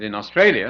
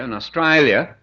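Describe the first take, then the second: First: Said in the usual way. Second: Australia said the Australian way; broad Australian vowel on Australia; Australian accent. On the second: Shown as a demonstration. Showing the audience how locals say it, Australian accent. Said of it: "the Cockney accent".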